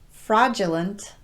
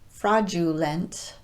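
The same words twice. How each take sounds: First: The vowel after the D is a schwa. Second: The vowel after the D is a long U. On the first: The speaker calls it right. "reduced the long U sound to more of a schwa vowel" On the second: The speaker calls it wrong. "not fraudulent"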